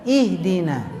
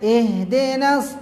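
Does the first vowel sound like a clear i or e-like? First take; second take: clear i; e-like. First: The i vowel is a clear, tense i. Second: The i vowel drifts toward an e sound. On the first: The speaker calls it right. "jadi i-nya gitu" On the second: The speaker calls it wrong. "Jangan ke e"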